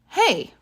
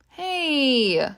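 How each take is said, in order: First: It is called out sharply to catch attention. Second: It is said in an annoyed, protesting tone. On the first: The speaker wants someone to notice them. "to get someone's attention. Like this" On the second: The speaker objects to what someone did. "if someone does something that we don't like. Like this"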